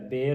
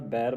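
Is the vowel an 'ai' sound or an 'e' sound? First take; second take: e; ai. First: The vowel is a plain 'e' sound. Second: The vowel is an 'ai' sound. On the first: The speaker calls it wrong. "ਬੇਰ ਨਹੀਂ ਪੜ੍ਹਨਾ" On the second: The speaker calls it right. "ਬੈਰ ਪੜ੍ਹਨਾ ਦਲਾਵਾਂ ਲੱਗੀਆਂ"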